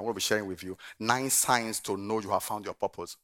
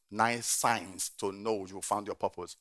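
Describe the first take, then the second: First: Said in the usual way. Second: Slow, each word weighed; slow emphatic repeat. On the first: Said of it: "repeated point". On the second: Shown as a demonstration. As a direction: spell it out slowly. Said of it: "slow repeat".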